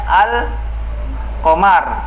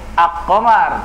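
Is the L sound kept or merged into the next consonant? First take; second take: kept; merged. First: The L is pronounced clearly before the Q. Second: The L merges into a doubled K sound. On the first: The speaker calls it right. "Membacanya al qamar" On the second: The speaker calls it wrong. "tidak dibaca ak-qamar"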